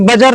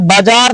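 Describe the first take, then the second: First: Both vowels are short. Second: Both vowels are long. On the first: The speaker calls it wrong. "बजर नहीं पढ़ देना गलती से" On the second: The speaker calls it right. "दोनों में डंडा देना पड़ेगा"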